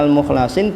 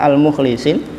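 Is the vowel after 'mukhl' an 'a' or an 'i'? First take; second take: a; i. First: The vowel after 'mukhl' is an 'a'. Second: The vowel after 'mukhl' is an 'i'.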